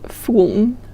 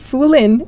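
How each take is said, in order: First: The final n follows directly with no vowel. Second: A clear vowel is said before the final n. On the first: The speaker calls it right. "it's Fooln" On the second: The speaker calls it wrong. "So it's not Foolin"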